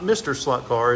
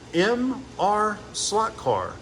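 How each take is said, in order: First: MR is spoken as the word mister. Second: MR is spoken as two separate letters. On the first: The speaker calls it wrong. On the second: The speaker calls it right.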